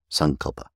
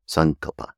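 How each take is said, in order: First: The stress is on the first syllable. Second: The stress is on the first syllable.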